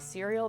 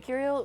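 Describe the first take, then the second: First: The name begins with a soft S sound. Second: The name begins with a hard K sound. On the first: "a soft C to be cereal" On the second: "with a hard C"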